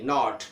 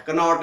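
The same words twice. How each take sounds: First: नॉट starting on n; silent K. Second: कनॉट with "ka" in front; sounded K. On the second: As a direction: say कनॉट, k wrongly voiced. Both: Shown as a demonstration. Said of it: "कनॉट नहीं".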